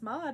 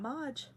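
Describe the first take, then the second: First: The word ends in a plain d sound. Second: The word ends in a j sound. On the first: The speaker calls it right. "I know it's mod" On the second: The speaker calls it wrong. "not Modge"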